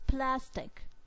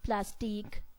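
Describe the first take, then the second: First: The stress is on the first syllable. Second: The stress is on the second syllable. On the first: The speaker calls it right. "with emphasis plastic" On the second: The speaker calls it wrong. "We do not pronounce the word as plastique. Like we do not put emphasis on teak"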